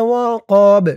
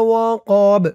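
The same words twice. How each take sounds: The two takes are said the same way.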